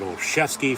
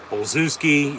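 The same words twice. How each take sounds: First: The name uses its official spoken form. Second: The name is sounded out letter by letter. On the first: The way others say the name. "they pronounce it Olszewski" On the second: The speaker's own stubborn reading of the name. "I'm going to say it as I said last week, how it's spelled"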